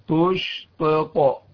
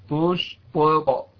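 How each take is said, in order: Both takes have the same delivery.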